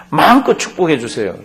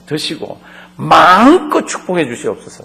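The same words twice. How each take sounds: First: Said in the usual way. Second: Pleading son. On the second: Acted. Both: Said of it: "마음껏이라는 게".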